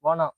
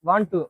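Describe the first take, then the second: First: The words are blended into one reduced word. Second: Both words are said fully and separately. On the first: "இது British இங்கிலீஷ்ல வந்து" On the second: "American English வந்து"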